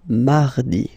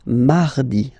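No difference in how they are said.

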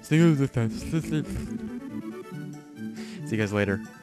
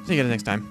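First: It is said slowly. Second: It is said fast.

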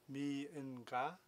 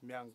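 First: It is said as a longer, fuller multi-syllable form. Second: It is said as a short, single-syllable form. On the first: This is how the classical script is read. "the number 1,000 in Mongolian is mi in ga" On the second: This is how people say it in everyday speech. "In spoken, it's myang"

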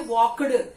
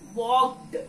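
First: The ending is said as an extra syllable. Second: The ending is a short t sound. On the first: The speaker calls it wrong. "You should not say walked" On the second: The speaker calls it right. "it's walked"

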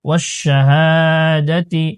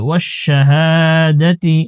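Both takes have the same delivery.

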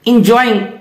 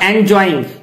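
First: The first vowel sounds like 'in'. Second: The first vowel sounds like 'en'. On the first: The speaker calls it right. "Remember it is इंजॉइंग" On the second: The speaker calls it wrong. "Not एंजॉइंग"

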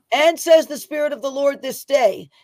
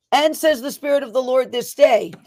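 The two takes are said the same way.

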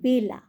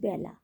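First: The first vowel is closer, like in 'bay'. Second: The first vowel is open, like in 'bat'. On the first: It is a person's name. "বেলা একজনের নাম, তখন কিন্তু আমরা উচ্চারণ করছি বয় একার" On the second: It means a time of day. "সেটা কিন্তু আমরা যখন উচ্চারণ করছি জফলা করছি"

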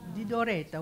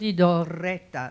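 First: The R in Doretta is short and single. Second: The R in Doretta is doubled and lengthened. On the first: The speaker calls it right. "one R" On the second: The speaker calls it wrong. "I would ask you not to double an R where it's not necessary. For instance, you say"

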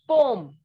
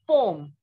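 Both takes have the same delivery.

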